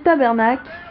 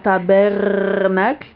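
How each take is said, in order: First: The word ends without its final syllable. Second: The r is rolled and the final syllable is pronounced. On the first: This sounds more like a real local speaker. The speaker calls it right. "on prononce pas le cle déjà. Déjà, si tu dis tabernacle, ça passe beaucoup mieux" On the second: This is an outsider's caricature of the accent. The speaker calls it wrong. "un français va imiter ça en disant tabernacle"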